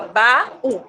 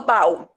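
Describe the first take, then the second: First: The two vowels are said in separate syllables. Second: The two vowels glide together in one syllable. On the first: The speaker calls it right. "Eu tenho que separar o A do U. Então fica baú" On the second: The speaker calls it wrong. "Se fosse junto, eu falava baú"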